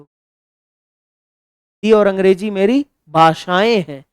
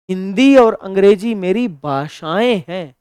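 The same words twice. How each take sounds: First: "भाषाएं हैं" stretched out word by word; slow, deliberate. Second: Said in the usual way. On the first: Shown as a demonstration. Teacher repeating the correct sentence slowly for students. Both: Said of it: "ये शुद्ध हो".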